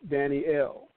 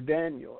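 First: The name is said the original Hebrew way. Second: The name is said the usual English way. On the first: The speaker calls it right. "but it's Daniel" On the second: The speaker calls it wrong. "as we pronounce it"

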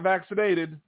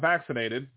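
First: The stress falls on an unusual syllable. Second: The stress falls on the usual syllable. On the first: The speaker calls it wrong. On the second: The speaker calls it right.

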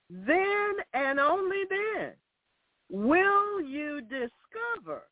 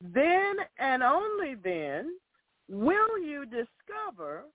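First: It is spoken at a slower pace. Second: It is spoken at a fast pace. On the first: The speaker calls it right. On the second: The speaker calls it wrong.

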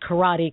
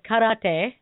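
First: It is pronounced the Americanized way. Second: It is pronounced the original Japanese way. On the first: The speaker calls it wrong. "it's been said so many times in the United States" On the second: The speaker calls it right. "already know that you pronounce it karate"

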